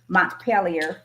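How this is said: The name is said with an American pronunciation. "for us Americans"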